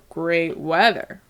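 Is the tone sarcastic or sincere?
sarcastic. It sounds sarcastic, with great pitched lower. The weather is actually bad. "if you're using sarcasm"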